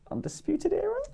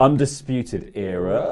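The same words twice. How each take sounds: First: The voice rises at the end. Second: The voice falls at the end.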